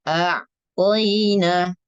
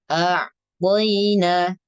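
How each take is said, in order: The two takes are said the same way.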